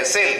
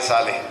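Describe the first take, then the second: First: It is said as one syllable, sale. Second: It is said as two syllables, sah-lay. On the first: It is the word's normal pronunciation. "बोला वो सेल है" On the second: It is read letter by letter from the spelling. "अगर उच्चारण के अनुसार, नियम के अनुसार देखते तो साले है"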